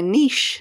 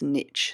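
First: It is said the Australian way. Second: It is said the American way.

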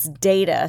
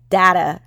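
First: The first vowel sounds like the word day. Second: The first vowel sounds like the word dad. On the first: "spell it D-A-Y-T-A" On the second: "spell it D-A-D-T-A"

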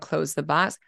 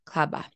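First: The words are said fully and kept distinct. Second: The words are run together into one short blur. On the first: This is the adult form of the phrase. "instead of close the box" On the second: This is how a young child says the phrase. "So it's all blended together"

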